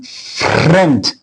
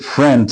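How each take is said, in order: First: The R sounds foreign-accented, not English. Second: The R sounds like a native English R. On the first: The speaker calls it wrong. "ele tinha o R de, de dizer assim" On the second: The speaker calls it right. "em vez de"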